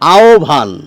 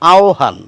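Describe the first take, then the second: First: The 'h' drops and a 'bh' sound is heard. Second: An 'o' glide comes before a plain 'h' sound. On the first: This is the modern pronunciation. "আধুনিক উচ্চারণটি হচ্ছে এই রকম" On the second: This is the older, traditional pronunciation. "এই উচ্চারণটি খানিকটা প্রাচীন উচ্চারণ"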